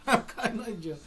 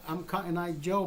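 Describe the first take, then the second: First: Higher, cracking up at own joke; laughing. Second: Said in the usual way. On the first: Real, not acted. Storyteller repeating his own joke answer, laughing. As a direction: laugh through the words.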